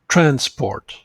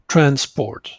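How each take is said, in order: First: The stress is on the first syllable. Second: The same.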